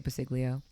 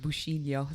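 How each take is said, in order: First: The surname is pronounced with an anglicized sound. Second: The surname is pronounced with Italian sounds. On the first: "I say Basiglio" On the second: "in Italian it's Busciglio"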